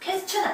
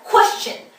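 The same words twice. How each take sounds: First: The first syllable is said without strong stress. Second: The first syllable is said with strong stress. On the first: The speaker calls it wrong. "question 아니고요" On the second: The speaker calls it right. "힘 확 주시고, 예, 코 따로 발음합니다"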